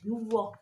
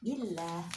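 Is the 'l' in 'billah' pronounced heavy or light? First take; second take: heavy; light. First: The 'l' is heavy and thick. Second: The 'l' is light and thin. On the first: The speaker calls it wrong. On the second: The speaker calls it right. "karena didahului oleh kasroh"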